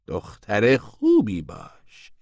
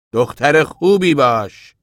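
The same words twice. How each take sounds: First: Very slow warning at normal volume; restrained angry warning. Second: Loud, high, drawn-out warning; sharp, angry. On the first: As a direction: stretch each word as a contained threat. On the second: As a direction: order her slowly and forcefully. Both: A narrator's reading.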